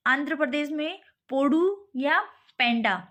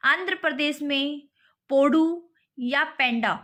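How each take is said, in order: First: Said in the usual way. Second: Slow dictation. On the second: Shown as a demonstration. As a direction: spell the names out slowly for the class. (धीमे और ज़ोर से, रटवाने के अंदाज़ में) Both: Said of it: "ठीक है, आंध्र प्रदेश में पोडू या पेंडा".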